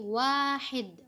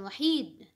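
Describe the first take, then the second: First: The first vowel is long. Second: The first vowel is short. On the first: The speaker calls it right. "Wa-nya dipanjangkan" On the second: The speaker calls it wrong. "Bukan wahid"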